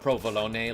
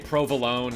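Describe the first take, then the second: First: It is said with an Italian pronunciation. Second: It is said with an American pronunciation. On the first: "like the Italians do" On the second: "how we say provolone"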